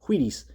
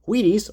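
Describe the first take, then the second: First: The 'wh' starts with a strong breathy puff. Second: The 'wh' starts plainly, like a w. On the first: "if you're Stewie Griffin, you'd be" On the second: "pronounce it without any emphasis on the on the W H"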